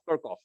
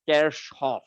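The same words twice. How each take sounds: First: The name is pronounced the English way. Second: The name is pronounced the German way. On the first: "somebody was talking about Kirchhoff" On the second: "the actual German pronunciation for this name is"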